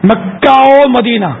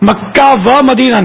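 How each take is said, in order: First: The joining word is a short 'o' sound. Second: The joining word is a clear 'wa' sound. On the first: The speaker calls it right. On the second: The speaker calls it wrong.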